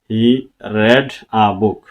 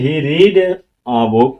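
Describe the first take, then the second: First: The verb read rhymes with bed. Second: The verb read rhymes with need. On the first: It is the past tense form. The speaker calls it right. "তাহলে বলবো তারটা সঠিক আছে" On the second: It would be the present tense form. The speaker calls it wrong. "তাহলে বলবো এই সেন্টেন্সটা ভুল"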